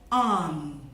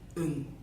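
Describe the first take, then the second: First: The vowel is full and clear. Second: The vowel is reduced and weak. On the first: "I'll say the words in their loud form" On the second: "repeat the words in their faint form"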